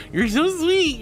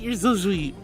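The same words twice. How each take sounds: First: Squeaky, much higher and louder sweet-talk; high, sugary thank-you; high cutesy gush. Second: Said in the usual way. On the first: Real, not acted.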